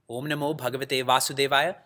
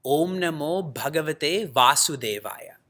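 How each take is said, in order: First: Said in the usual way. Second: Mantra recitation. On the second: Shown as a demonstration. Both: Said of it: "This mantra is".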